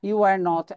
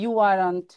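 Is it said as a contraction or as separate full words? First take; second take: separate words; contraction. First: Each word is said separately and in full. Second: The words are joined into one contracted form. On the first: "আলাদা করে বলা যাবে" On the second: "একসাথে বললে বাক্যটা শুনতে ভালো লাগবে"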